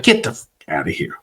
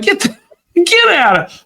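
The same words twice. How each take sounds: First: Softer, lower stunned mutter; hushed disbelief. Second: Much higher squeaky disbelief; stunned disbelief. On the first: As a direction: say it under your breath, dumbfounded. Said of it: "and I was like". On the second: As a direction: blurt it high in shock. Disbelief at the healing. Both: Retold or imitated.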